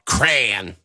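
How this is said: It is said the Midwest, Michigan way.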